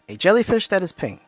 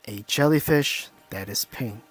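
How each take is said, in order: First: It is said in a plain, ordinary voice. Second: It is said in a slow, hypnotic voice. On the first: The speaker has no intention behind the words. "normal voice, no intention" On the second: The speaker intends the words to hypnotize the listener. "hypnotic tone, intention"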